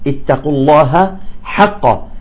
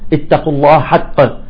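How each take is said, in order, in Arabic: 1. تبقى الهاء واضحة قبل الصوت الذي بعدها. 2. تتصل الهاء بالحرف الحلقي الذي بعدها.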